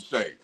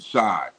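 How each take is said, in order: First: The name's vowel rhymes with 'day'. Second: The name's vowel rhymes with 'eye'. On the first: The speaker calls it right. "his mama named him Shay, so I got to call him Shay" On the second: The speaker calls it wrong. "I was calling him Shy"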